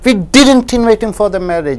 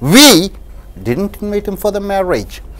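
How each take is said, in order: First: The stress falls on the word didn't. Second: The stress falls on the word we. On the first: It is not true at all. "When you stress the word didn't" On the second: Someone else invited him. "when you stress the word we"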